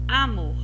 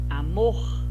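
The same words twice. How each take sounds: First: The stress is on the first syllable. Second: The stress is on the last syllable. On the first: The speaker calls it wrong. "para tirar dúvida se seria penúltimo" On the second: The speaker calls it right. "Você pronunciou mor mais forte"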